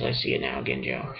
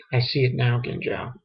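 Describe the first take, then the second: First: Very low, hushed character imitation. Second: Said in the usual way. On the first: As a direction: drop it right down, deep and soft. Repeats the line in character's voice.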